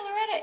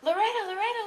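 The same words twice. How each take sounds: First: High call falling off; last call of the name, dropping down; fans' final call of the name, falling. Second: High, louder calls rising at the end; calling out. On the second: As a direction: call for her across a crowd. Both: Retold or imitated. People around going.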